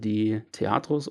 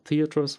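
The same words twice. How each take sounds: First: The name is pronounced with German sounds. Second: The name is pronounced with English sounds.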